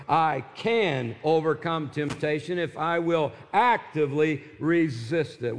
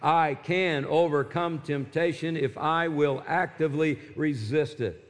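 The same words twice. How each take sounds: First: "can" and "actively" pushed out firmly; stress on can and actively. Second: Said in the usual way. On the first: Shown as a demonstration. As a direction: hit "can" and "actively" harder. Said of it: "Let's emphasize the word can and actively". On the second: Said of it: "Say it out loud with me".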